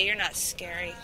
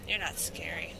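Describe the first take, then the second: First: Said in the usual way. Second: Unvoiced taunting whisper. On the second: Real, not acted. Taunting the monster in a whisper. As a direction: breathe it as a sly whisper. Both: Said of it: "repeated in whisper".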